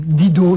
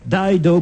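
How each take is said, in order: First: The first vowel sounds like French 'i'. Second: The first vowel sounds like English 'eye'. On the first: "c'est Dido si vous préférez" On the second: "En Angleterre et aux États-Unis"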